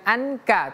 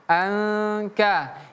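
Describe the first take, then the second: First: The n sound is pronounced clearly. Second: The n sound is hidden and nasal. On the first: The speaker calls it wrong. "bukan anka" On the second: The speaker calls it right. "dibacanya samar-samar atau tidak jelas"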